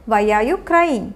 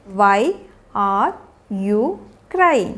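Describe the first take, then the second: First: Said in the usual way. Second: Slow, long gaps between single words. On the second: Shown as a demonstration. Teacher modelling a question to a crying child, word by word. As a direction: isolate each word of the question.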